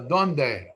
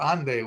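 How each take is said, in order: First: The word starts with a D sound. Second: The word starts with an A sound. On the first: This is the standard Spanish form. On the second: This is how Ladino speakers say it.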